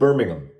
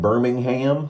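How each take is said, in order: First: The word is said with a British pronunciation. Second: The word is said with an American pronunciation. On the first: "I was trying to pronounce it not American" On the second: "like we say over here"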